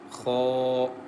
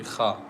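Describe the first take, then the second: First: The kha sound is thick and heavy. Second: The kha sound is thin and light. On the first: The speaker calls it right. "Kha is very thick and heavy letter" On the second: The speaker calls it wrong. "Don't say kha"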